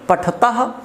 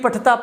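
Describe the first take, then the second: First: The word is said very clearly, with a crisp ending. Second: The word is said loosely, without a crisp ending. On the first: The speaker calls it right. "बहुत साफ बोलना है, blade की धार जैसा" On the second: The speaker calls it wrong. "ऐसे नहीं, वो गलत हो जाएगा"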